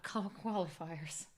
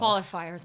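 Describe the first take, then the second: First: Qualifiers drawn out slowly as a correction; stress on qualifiers. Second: Said in the usual way. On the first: Shown as a demonstration. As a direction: stretch out qualifiers slowly to set Matt straight. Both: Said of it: "It's not finals yet".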